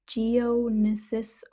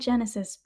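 First: The name has an extra syllable after 'Geo'. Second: The name sounds like the word genesis. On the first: The speaker calls it right. "but it's Geonesis" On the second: The speaker calls it wrong. "I said Genesis"

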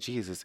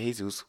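First: The name begins with a hard J sound. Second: The name begins with an H sound. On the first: "In English, the name is pronounced with the hard J" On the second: "In Spanish, it's pronounced with the H"

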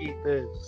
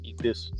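First: It is said as a loud, showy battle cry. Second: It is said as a casual, menacing threat. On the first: It announces a showy special attack. "like when they're doing a flashy attack, they're like" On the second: The speaker really means to kill. "people that are just fucking trying to kill you, like, hey buddy"

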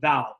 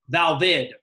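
First: The word is said with one syllable. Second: The word is said with two syllables. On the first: The speaker calls it wrong. "otherwise we would elide that in our English way of speaking" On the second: The speaker calls it right. "makes that E pop"

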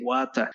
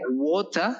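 First: It is said in an East African accent. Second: It is said in a standard British accent.

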